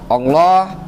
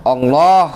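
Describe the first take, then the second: No difference in how they are said.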